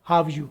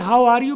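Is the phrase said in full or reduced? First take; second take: reduced; full. First: 'Are' is dropped and the words run together. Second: Every word, including 'are', is said fully. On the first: The speaker calls it right. "लेकिन ज्यादा ये बेहतर है हाव यू" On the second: The speaker calls it wrong. "इसे हाउ आर यू भी कह सकते हैं"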